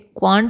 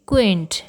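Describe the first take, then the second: First: The vowel sounds like 'ah'. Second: The vowel sounds like 'ay'. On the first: The speaker calls it wrong. "इसे क्वांट नहीं कहते हैं" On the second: The speaker calls it right. "इसे कहते हैं क्वेंट"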